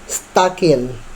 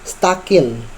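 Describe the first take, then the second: Both takes have the same delivery.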